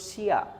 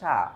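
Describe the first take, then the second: First: It is said as two parts, shi then ya. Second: It is said as one blended sound, sha. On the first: The speaker calls it wrong. "হওয়ার কথা ছিল শিয়া, কিন্তু শিয়া না হয়ে" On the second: The speaker calls it right. "এটার উচ্চারণ বলবো আমরা সা"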